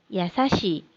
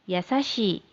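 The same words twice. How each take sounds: Both takes have the same delivery.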